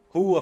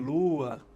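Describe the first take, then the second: First: The word starts with an R sound. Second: The word starts with an L sound.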